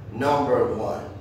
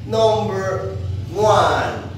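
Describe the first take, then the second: First: Said in the usual way. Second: High, loud and slow; drawn-out announcement. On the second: Acted. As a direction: stretch it out like a big reveal. Teacher announcing the number.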